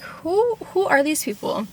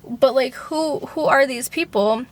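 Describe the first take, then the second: First: Who jumps way up, then falls baffled; incredulous squeak. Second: Said in the usual way. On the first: Retold or imitated. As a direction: squeal the first who in mock disbelief. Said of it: "And I was like". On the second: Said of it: "same question in narration".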